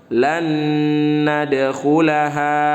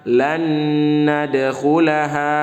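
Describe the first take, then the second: Both takes have the same delivery.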